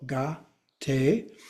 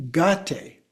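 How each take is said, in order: First: "gate" split as ga, then tay; divided syllables. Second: Said in the usual way. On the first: Shown as a demonstration. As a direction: draw out "gate" in two separate syllables. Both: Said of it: "You just divide in the middle".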